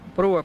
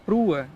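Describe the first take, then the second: First: The vowel sounds like o. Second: The vowel sounds like u.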